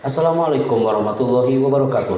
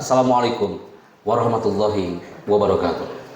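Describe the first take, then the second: First: The words run together like a recitation. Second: Each word is said separately with pauses. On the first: It sounds like a religious recitation, not a presentation greeting. The speaker calls it wrong. "itu salam kayak Bismillah" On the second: It sounds like a presentation greeting. The speaker calls it right. "Anda bilang perkata"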